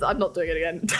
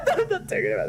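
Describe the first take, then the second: First: Said in the usual way. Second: Higher and faster, laughing through the words; embarrassed laughing protest; laughing refusal. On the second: Real, not acted. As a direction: giggle out the refusal as you repeat it.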